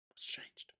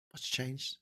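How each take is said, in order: First: Breathy whisper of the question; soft bitter whisper; whispered aside. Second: Said in the usual way. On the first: Real, not acted. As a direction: ask it under your breath. Rhetorical repeat, whispered.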